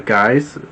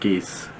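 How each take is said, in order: First: The name rhymes with the word guys. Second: The name rhymes with the word geese. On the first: "I'm not sure if I'm pronouncing that correctly" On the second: "I think it's pronounced geese"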